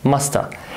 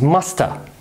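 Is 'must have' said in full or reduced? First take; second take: reduced; reduced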